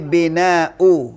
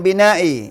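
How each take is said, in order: First: The word ends with a 'u' vowel. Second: The word ends with an 'i' vowel. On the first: The speaker calls it right. "tapi bina'u dibaca u" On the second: The speaker calls it wrong. "Bukan bina'i"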